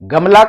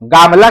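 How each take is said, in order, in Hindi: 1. पहला स्वर छोटा है। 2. पहला स्वर लंबा है।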